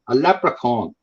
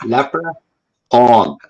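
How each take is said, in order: First: Said in the usual way. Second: Very slow, laughing, drawn-out leprechaun; stretched mocking leprechaun. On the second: Shown as a demonstration. Mocking the leprechaun myth to his guest, slow laughing drawl. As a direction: drag out every sound of leprechaun through a laugh, as a joke. Repeats word to mock the legend.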